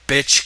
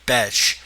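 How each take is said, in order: First: The vowel sounds like the one in 'bitch'. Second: The vowel sounds like the one in 'betch'. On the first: The speaker calls it wrong. "you always go, bitch" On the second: The speaker calls it right. "I think you're supposed to say her name Betch"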